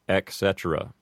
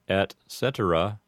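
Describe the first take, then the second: First: The first word ends in a K sound. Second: The C in cetera is a soft S sound. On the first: "mispronounced as ec cetera" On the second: "An Americanized way to say this expression"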